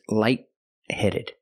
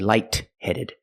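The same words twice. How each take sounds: First: The T in light is held, not released. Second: The T in light is released. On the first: The speaker calls it right. "The T in light is a stop T" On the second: The speaker calls it wrong. "You don't say light-headed"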